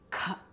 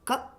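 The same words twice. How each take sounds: First: The consonant is said with a puff of air. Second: The consonant is said without extra breath. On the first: "we want a lot of air coming" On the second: "the first two letters"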